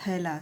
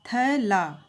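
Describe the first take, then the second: First: Said in the usual way. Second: थैला in two separate parts, थै and ला; split into syllables. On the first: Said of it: "ये दोनों मिलके बना थैला शब्द". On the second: Shown as a demonstration. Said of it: "ये दोनों मिलके बना थैला".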